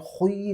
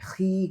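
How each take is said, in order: First: The syllable is said heavy, with a full mouth. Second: The syllable is said light and thin. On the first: The speaker calls it wrong. "खुई नहीं कहना है" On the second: The speaker calls it right. "खी कहना है, क्योंकि ज़ेर है, ज़ेर को हमेशा बारीक पढ़ा जाता है"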